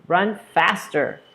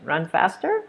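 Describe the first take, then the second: First: Slow command, falling on "faster"; falling order tone. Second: "faster" rises at the end; questioning tone. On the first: Coach giving runner an order, falling tone on "faster". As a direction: draw out "Run faster" and drop the end. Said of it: "Those use a falling tone". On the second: Teacher showing what coach didn't say, rising question on "faster". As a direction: turn the order into a question, lifting "faster". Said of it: "he didn't make it a question". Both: Shown as a demonstration.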